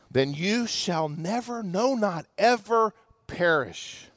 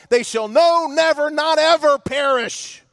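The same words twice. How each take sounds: First: Hushed, slow whisper; preacher whispering the promise to the congregation. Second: NO, NEVER, NOT EVER punched one by one; preacher hammering the promise home, stressing "never, not ever"; emphatic never. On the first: Acted. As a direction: breathe "never, not ever perish" softly and slowly. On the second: Shown as a demonstration. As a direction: hit "no", "never" and "ever" hard, rising in force. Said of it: "It's emphatic in the original language".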